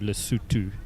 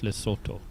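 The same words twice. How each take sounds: First: The o vowels sound like 'oo'. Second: The o vowels sound like 'oh'. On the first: The speaker calls it right. "it is pronounced with a U" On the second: The speaker calls it wrong. "and not"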